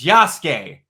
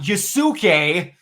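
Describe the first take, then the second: First: The u sound is dropped. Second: The u sound is fully pronounced. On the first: The speaker calls it right. "it's Yasuke. That's how it's pronounced. The U doesn't exist" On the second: The speaker calls it wrong. "not Yusuke"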